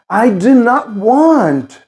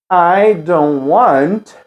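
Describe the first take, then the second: First: Slow, higher "I do not want" with firm weight on every word; emphatic full negative. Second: Slow "I don't want", "don't" ending on N; dropped T in don't. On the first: Speaker insisting as if "I told you", emphatic. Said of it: "pra realmente enfatizar algo". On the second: Teacher modelling fluent negative for repetition, T dropped. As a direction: link "don't" into "want" with no T between. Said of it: "O som do T não precisa pronunciar". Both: Shown as a demonstration.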